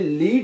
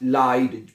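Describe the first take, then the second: First: The vowel sounds like 'ee'. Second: The vowel sounds like 'eye'. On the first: The speaker calls it wrong. "इसको आपने लीड नहीं पढ़ना" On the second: The speaker calls it right. "इसको हम इंग्लिश में आई की तरह प्रोनाउंस करेंगे"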